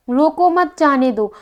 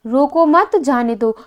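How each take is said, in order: First: रोको set apart, then मत जाने दो together; slow reading, comma pause after रोको. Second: रोको मत together, then जाने दो set apart; slow reading, comma pause after मत. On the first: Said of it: "एक क्या है आपका? कॉमा है". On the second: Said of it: "एक ही बात को हमने दो बार लिखा". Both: Shown as a demonstration.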